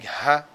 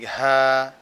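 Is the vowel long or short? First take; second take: short; long. First: The vowel is short and clipped. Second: The vowel is drawn out long. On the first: The speaker calls it right. "instead of saying ha" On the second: The speaker calls it wrong. "prolong the haraka, give it extra length"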